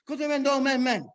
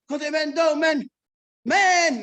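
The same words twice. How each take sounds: First: The calls run together in one rhythm. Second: The calls are spaced apart with gaps.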